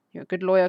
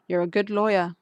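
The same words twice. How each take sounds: First: Louder, leaning hard on the praise; louder emphatic compliment. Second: Said in the usual way. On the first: Shown as a demonstration. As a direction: push the compliment out with force. Repeats compliment, second take louder.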